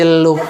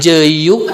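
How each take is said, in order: First: The middle consonant is an l sound. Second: The middle consonant is a y sound. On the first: "sanes jeluk bager jeruk" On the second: "cek budak nanti jeyuk"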